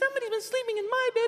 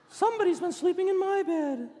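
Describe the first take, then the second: First: It is said in a high squeaky voice. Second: It is said in a growling bear voice.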